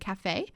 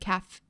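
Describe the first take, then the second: First: The word is said as two syllables. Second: The word is said as one short syllable. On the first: It suggests a coffee shop. "Caf and cafe are spelt the same way, but they are pronounced differently" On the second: It suggests a school cafeteria. "Caf and cafe are spelt the same way, but they are pronounced differently"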